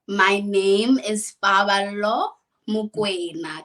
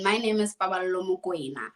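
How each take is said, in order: First: It is said slowly. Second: It is said at normal speed.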